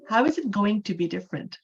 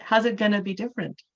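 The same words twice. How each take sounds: First: "How is it going to" with each word whole; full uncontracted forms. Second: "How's it gonna" run together quickly; casual Western contraction. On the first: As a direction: keep "How is" and "going to" unreduced. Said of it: "They're gonna say". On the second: Teacher demonstrating Western English phrasing, contracted and quick. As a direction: reduce "going to" to a quick "gonna". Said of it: "Western English sentence". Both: Shown as a demonstration.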